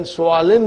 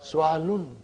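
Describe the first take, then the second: First: Su'alin said with a short i at the end, su-'a-lin. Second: Su'alun said with a short u at the end, su-'a-lun. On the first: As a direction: end su'alin on -in, the genitive ending. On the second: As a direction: end su'alun on -un, the nominative ending. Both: Shown as a demonstration. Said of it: "su'alin will become su'alun".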